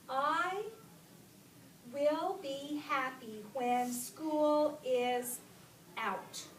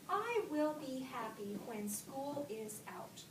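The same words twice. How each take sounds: First: Slow, loud, stretched-out reading; word-by-word reading. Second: Measured statement, no exclamation on "out"; read with a period. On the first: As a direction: read it out word by word, emphatically. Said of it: "Let me read it again". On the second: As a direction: read it evenly, settling on "out" as a full stop. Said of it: "Because it's just a period". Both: Shown as a demonstration.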